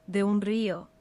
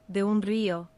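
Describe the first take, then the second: No difference in how they are said.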